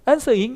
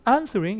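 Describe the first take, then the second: First: The r sound in the middle is dropped. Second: The r sound in the middle is pronounced. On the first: The speaker calls it wrong. "영국식이라고 해서 answering 이렇게 하면 안 돼요" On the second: The speaker calls it right. "answering 이렇게 발음을 해주는 거죠"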